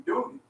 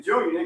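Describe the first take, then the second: First: "Junior" as Junie, ending in ee; relatives' pronunciation. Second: Said in the usual way. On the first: Shown as a demonstration. Man telling what sisters call him, relatives' pronunciation. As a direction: drop the r of "Junior" for an ee. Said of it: "they call me Junior". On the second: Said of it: "instead of saying Junior".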